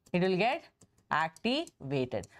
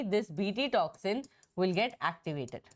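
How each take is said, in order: First: "activated" drawn out long and low; slow right down and stretch "activated" low; slow drawn-out emphasis. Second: Said in the usual way. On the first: Shown as a demonstration. Teacher to students, stretching "activated" slow and low. Teacher repeating key point.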